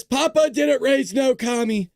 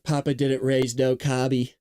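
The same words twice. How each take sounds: First: Higher, slower, stressing Papa; punchy slogan. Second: Said in the usual way. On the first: Shown as a demonstration. Reading his shirt slogan to viewers, punchy and proud. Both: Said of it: "That's what it says".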